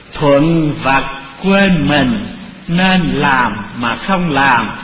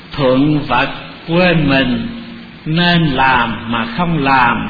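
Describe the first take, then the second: The two takes are said the same way.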